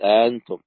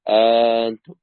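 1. الهمزة الثانية مسهلة، وليست مغلقة تماماً. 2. الهمزة الثانية تصير حرف مد. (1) "ومنهم من يسهل" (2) "ومنهم من يبدل"

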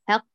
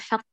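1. صوت الحاء مرقق وخفيف. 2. صوت الحاء مفخم وثقيل. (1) "رقق الحاء" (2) "لا نقول حق"

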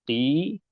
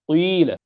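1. الحركة كسرة عادية مع تفليج الشفتين. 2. الحركة كسرة مع ضم الشفتين. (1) "فالشفتان يتهيئان للكسر" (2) "فهذا يسمى إشمام"

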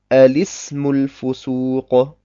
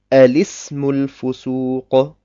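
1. Es beginnt mit einem A-Laut vor dem L. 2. Es beginnt mit einem A-Laut vor dem L.

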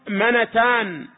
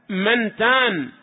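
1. النون الأولى تحمل فتحة قصيرة. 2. النون الأولى ساكنة، لا حركة لها. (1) "وقد ورد قليلا فتح النون التي قبل التاء" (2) "بالسكون"

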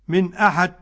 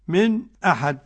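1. تُنطق الهمزة كاملة بلا سكت. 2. يُسكت سكتة خفيفة قبل الهمزة. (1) "تحقيق" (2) "سكت"

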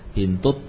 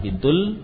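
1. Kata itu berakhir dengan bunyi T. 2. Kata itu berakhir dengan bunyi L. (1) "Bintut tabibi, bukan bintul" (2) "bukan bintul"

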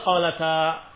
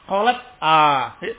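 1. Huruf t langsung mengalir ke a di akhir. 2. Huruf t dihentikan dulu, lalu a berdiri sendiri setelahnya. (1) "Tentu dibacanya qalata" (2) "Ya enggak mungkin"

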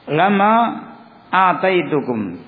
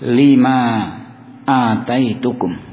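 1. Kata pertama diucapkan dengan vokal 'a'. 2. Kata pertama diucapkan dengan vokal 'i'. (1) "Dibaca dengan memfathah lam" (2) "lam di sini dibaca dengan kasrah"

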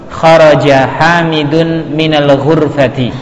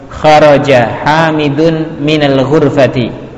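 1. Kata-kata dibaca menyambung dalam satu alur. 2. Kata-kata dibaca menyambung dalam satu alur.

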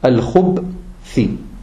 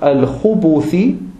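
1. Auf den b-Laut folgt kein Vokal. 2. Ein u-Vokal folgt auf den b-Laut. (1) "das Ba ... hat keine Dhamma, sondern es hat eine Sukun" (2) "hat keine Dhamma, sondern es hat eine Sukun"

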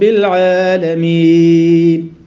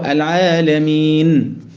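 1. لا توجد غنة في النون الأخيرة على الإطلاق. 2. في النون الأخيرة غنة خفيفة وقصيرة. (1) "كتير مننا بيضيعها خالص" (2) "لازم اسمع كده"

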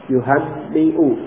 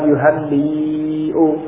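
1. Vokal sebelum hamzah itu pendek. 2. Vokal sebelum hamzah itu panjang. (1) "Jadi membacanya pendek" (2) "Bukan yuhanni'u. Bukan. Kalau itu panjang"

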